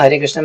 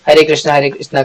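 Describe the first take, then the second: First: Under-the-breath japa. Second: Said in the usual way. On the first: Shown as a demonstration. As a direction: say Hare Krishna quietly, as if to yourself. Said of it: "अगर मैं ऐसे ऐसे करता हूँ ना". (दबी आवाज़ में जप) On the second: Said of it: "medium voice में".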